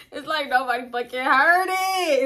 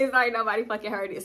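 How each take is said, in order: First: Laughing through the words, higher; can barely get it out for laughing. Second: Said in the usual way. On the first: Real, not acted. Laughing retelling.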